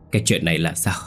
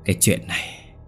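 First: Said in the usual way. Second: Breathless, barely-there words; faint dying whisper. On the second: Acted. Wife to husband, horrified over the body, whispering. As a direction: whisper it like someone about to die. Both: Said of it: "hỏi bằng một giọng thều thào như người sắp chết".

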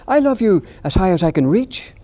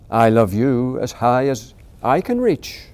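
First: High, louder eager little voice; little hare reaching. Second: Big hare answering. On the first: Little hare reaching up to beat his father, high eager. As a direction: stretch up with all your might. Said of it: "said Little Nut Brown Hare". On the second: Big hare matching his son, slow calm father voice. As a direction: answer the child with easy warmth. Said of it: "said Big Nut Brown Hare". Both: Acted.

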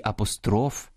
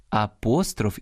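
First: "апостроф" stressed on the last syllable, апострОф. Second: "апостроф" stressed on the middle syllable, апОстроф; stress on second syllable. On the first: Host showing parallel stresses, "апостроф" with final-syllable stress. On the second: Host showing parallel stresses, "апостроф" with middle-syllable stress. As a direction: lean on the first О of "апостроф". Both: Shown as a demonstration. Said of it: "подвійне або паралельне наголошування".

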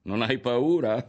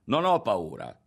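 First: Loud, high jeer; scoffing, derisive echo; mocking laugh. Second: Raised, firm defiance; louder, resolute retort; defiant. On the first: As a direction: throw it back at him in mockery. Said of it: "rise Berto". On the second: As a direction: stand up to the threat. Boy defies a threat. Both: A narrator's reading.

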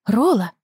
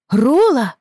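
First: Raised call, higher. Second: High, loud shout of the name; loud call. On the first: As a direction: call the dog's name. Calling the runaway dog. (зовёт собаку) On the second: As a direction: yell after the running dog. Рэйчел громко звала его. (громко зовёт собаку) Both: Acted.

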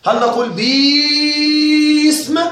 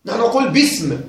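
First: باسم sung slow with a long stretched baa; mocking the wrong long vowel in باسم; drawn-out mock madd. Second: Said in the usual way. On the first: Shown as a demonstration. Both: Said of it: "أين مد الباء؟".

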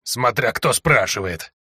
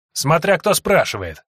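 First: Slow hoarse croak with a hint of irony; hoarse and ironic. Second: Still furious. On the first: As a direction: echo her words back dryly, slowly. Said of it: "В хриплом голосе пленницы чувствовалась нотка иронии". (хрипло, с ноткой иронии) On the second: Acted. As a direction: snap back in lingering rage. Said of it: "всё ещё пребывающая в ярости Сойка". (всё ещё в ярости)

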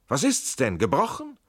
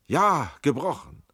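First: High, loud question rising on "gebrochen"; alarmed question. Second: Loud, slow answer falling on "gebrochen"; pained confirmation. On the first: Tränk to injured comrade, "gebrochen" as a rising question. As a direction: ask urgently, "gebrochen" shooting up at the end. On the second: Injured Schell answers, "gebrochen" slow and falling. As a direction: start high on "Ja", let "gebrochen" drop. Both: A narrator's reading.

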